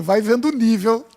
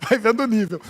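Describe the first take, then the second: First: Said in the usual way. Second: Softer and faster, laughing through it; amused, fast, softer laugh-through repeat. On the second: Real, not acted. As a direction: chuckle the line as it slips out. Preacher repeats the joke line.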